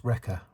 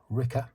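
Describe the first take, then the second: First: Said in the usual way. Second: Wrecker turned to "Ricker", New Zealand style; New Zealand accent. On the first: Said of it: "so she calls Wrecker Ricker". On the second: Retold or imitated. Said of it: "New Zealand accent".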